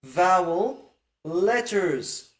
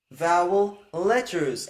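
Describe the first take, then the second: First: "vowel letters" spoken slowly, each word weighted; slow, stressed "vowel letters"; slow emphasis. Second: "Vowel letters" repeated slowly, stress on letters; slow repeated emphasis. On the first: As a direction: lean on "vowel letters" to make the point. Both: Shown as a demonstration. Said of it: "They are really talking about".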